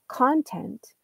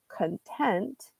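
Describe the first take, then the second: First: The stress is on the first syllable. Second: The stress is on the second syllable.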